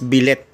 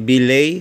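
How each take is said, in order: First: The word ends with a 'lit' sound. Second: The word ends with a 'lay' sound. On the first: "pinapronounce ng iba as billet" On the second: "belay o yung tinatawag na"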